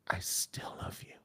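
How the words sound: It is said in a breathy, intimate voice.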